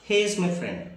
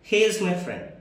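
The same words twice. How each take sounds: Both takes have the same delivery.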